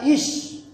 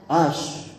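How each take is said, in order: First: The first vowel is an i sound. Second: The first vowel is an a sound. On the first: It is a command form. The speaker calls it wrong. "Jadi dibacanya ish" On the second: It is a present tense form. The speaker calls it right. "Harusnya ash"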